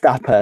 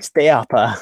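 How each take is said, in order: First: The first vowel is one plain sound. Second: The first vowel glides into a second sound. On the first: This is how the name should be said. The speaker calls it right. "who should be pronounced Stapa" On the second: This is how people in the show say it. The speaker calls it wrong. "they're all going Stayapa"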